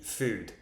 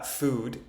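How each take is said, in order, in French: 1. La voyelle est avancée, plus proche du u français. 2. La voyelle est un « oo » pur et postérieur. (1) "je dis food" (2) "je ne dis pas food"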